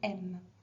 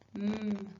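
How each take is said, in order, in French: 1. La consonne est suivie d'un son voyelle ajouté. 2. La consonne est prononcée seule, sans voyelle. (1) "éviter de prononcer à la fin de chaque lettre le son E" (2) "On va plutôt prononcer les lettres comme suit"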